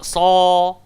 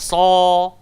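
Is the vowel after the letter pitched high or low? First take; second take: low; low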